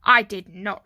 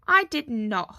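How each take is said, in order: First: Loud, emphatic retort; firm denial. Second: Loud, slightly raised huff; huffy denial. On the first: Arthur answers his brother's accusation, loud firm denial. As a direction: deny it forcefully at an even pitch. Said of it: "replied Arthur". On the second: Stanley answers his brother's accusation, loud huffy denial. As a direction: throw the denial back in a huff. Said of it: "huffed Stanley". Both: A narrator's reading.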